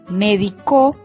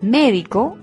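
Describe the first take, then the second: First: The stress is on the last syllable. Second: The stress is on the first syllable. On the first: It means someone treated someone in the past. "Médico es un verbo en tercera persona y en tiempo pasado" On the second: It names a health professional. "Médico es el profesional de la salud"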